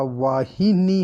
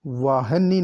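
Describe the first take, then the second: First: Slow वाहिनी with clear "hi"; correct pronunciation. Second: वाहनी as "vaa-ha-nee"; short a after h in वाहनी; wrong pronunciation. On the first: Teacher correcting the word, वाहिनी slowly with hi. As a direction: stretch वाहिनी as "vaa-hi-nee". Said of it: "होता है". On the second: Teacher showing the error, वाहनी with ha. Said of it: "नहीं लिखा जाता". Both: Shown as a demonstration.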